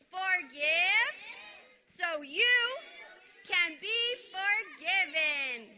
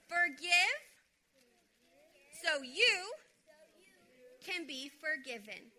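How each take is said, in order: First: It is said very loudly. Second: It is said at normal volume.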